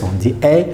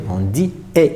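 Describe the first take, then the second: First: "E" said as an open è, mouth wider, like in "mère"; è ouvert, comme dans mère; open è sound. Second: "E" said as a closed é, lips spread, like in "été"; é fermé, comme dans été; closed é sound. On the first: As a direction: say "E" with the open è vowel. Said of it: "c'est ouvert". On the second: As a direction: say "E" with the tight closed é vowel. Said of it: "c'est fermé". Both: Shown as a demonstration.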